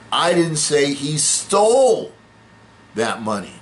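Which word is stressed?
stole. The word 'stole' carries the main stress. He got the money some other way. "No, he just borrowed it"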